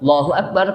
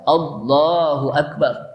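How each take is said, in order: First: One 'a' sound is dropped from the phrase. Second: Every 'a' sound in the phrase is pronounced. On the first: The speaker calls it wrong. "Dia baca langsung apa?" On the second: The speaker calls it right. "Padahal Allahu Akbar"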